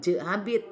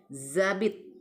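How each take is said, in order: First: The word begins with a J sound. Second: The word begins with a Z sound. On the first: The speaker calls it wrong. "bukan jabit" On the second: The speaker calls it right. "tapi zabit"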